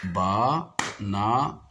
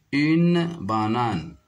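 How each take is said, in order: First: "Banane" split ba, na, n; clap-along "Banane" with gaps between beats; syllable by syllable. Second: Said in the usual way. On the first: Shown as a demonstration. Teacher tapping out syllables for pupils, syllable by syllable. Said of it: "je frappe les syllabes". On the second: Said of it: "image présente une banane".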